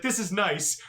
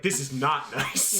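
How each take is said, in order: First: Said in the usual way. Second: Dry. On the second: Retold or imitated. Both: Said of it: "And I was like".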